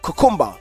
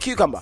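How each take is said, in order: First: It is said in a Jamaican accent. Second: It is said in the speaker's usual accent. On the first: "in Jamaica they'll say things like cucumber" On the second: "we say cucumber"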